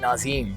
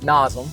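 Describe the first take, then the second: First: The second vowel is a long ee sound. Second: The second vowel is a short e sound. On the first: The speaker calls it wrong. "double the e up and pronounce it Nazim" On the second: The speaker calls it right. "it's Nazem"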